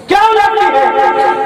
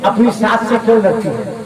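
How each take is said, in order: First: क्यों pushed higher and louder; क्यों said higher as a scolding demand; stress on क्यों. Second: Said in the usual way. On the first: Shown as a demonstration. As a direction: lean hard on क्यों in the rebuke.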